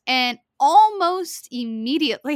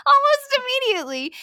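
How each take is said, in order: First: Said in the usual way. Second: Much higher, laughing disbelief. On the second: Real, not acted. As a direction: squeal it through laughter.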